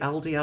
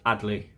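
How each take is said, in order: First: The name is said as Al-dee, l first. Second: The name is said as Ad-lee, d first. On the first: The speaker calls it wrong. "I get the two letters mixed up" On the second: The speaker calls it right. "Adley is the correct pronunciation"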